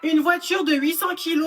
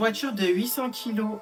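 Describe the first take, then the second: First: It is read loudly, almost shouted. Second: It is read at a normal, low-energy volume.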